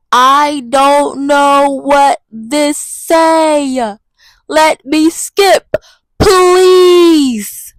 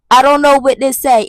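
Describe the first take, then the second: First: Very slow, drawn-out whine; slow, helpless whining; whiny stalling. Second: Said in the usual way. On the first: Acted. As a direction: stretch every word out like a lost kid. Pleading with the Spanish program.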